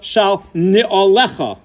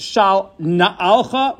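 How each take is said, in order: First: "ni'olecha" slowly as ni-o-LE-kha, four syllables; this parsha's wording. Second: "na'alcha" slowly as na-AL-kha, three syllables; Yoshua's wording. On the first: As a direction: spell out the vowels of "ni'olecha": ni-o-LE-kha. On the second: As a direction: stress the middle of "na'alcha": na-AL-kha. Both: Shown as a demonstration. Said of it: "as opposed to this week's parsha".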